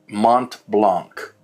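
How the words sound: The name is said with German pronunciation. The speaker calls it right. "I'm going to pronounce it the German way"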